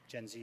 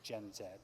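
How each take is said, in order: First: Z is said as 'zee', American style. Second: Z is said as 'zed', Canadian style.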